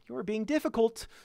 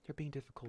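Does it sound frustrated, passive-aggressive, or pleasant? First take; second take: passive-aggressive; pleasant. First: It sounds passive-aggressive, with veiled annoyance. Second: It sounds pleasant and neutral, without annoyance. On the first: The speaker calls it right. "Or passive aggressive" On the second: The speaker calls it wrong. "But it shouldn't be"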